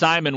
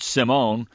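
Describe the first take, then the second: First: The name is said with an American pronunciation. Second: The name is said with a French pronunciation. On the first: "prefers the Americanized pronunciation" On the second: "the French word Simone"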